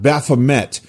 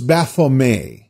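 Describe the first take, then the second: First: The word is pronounced the English way. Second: The word is pronounced the French way. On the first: The speaker calls it wrong. "it's really not Baphomet" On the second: The speaker calls it right. "because it's a French word. So it's Baphomet"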